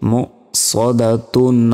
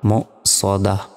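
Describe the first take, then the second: First: The word ends in a tun sound. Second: The word ends in a soft h sound. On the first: The reader continues without stopping. "আমরা যদি এইখানে না থামি সেক্ষেত্রে এই গোল তারই উচ্চারণ হবে" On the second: The reader stops at the end of the verse. "যদি আমরা থামি সেক্ষেত্রে তখন বলতে হবে দাল হা জবর দাহ"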